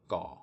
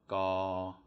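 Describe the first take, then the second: First: The pitch stays level and low. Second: The pitch stays level at mid height. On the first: "it's going to be a low tone" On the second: "it's no tone"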